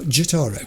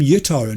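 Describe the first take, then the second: First: The name begins with a J sound. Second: The name begins with a Y sound. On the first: The speaker calls it wrong. "not Jotaro" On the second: The speaker calls it right. "I want to call him Yotaro"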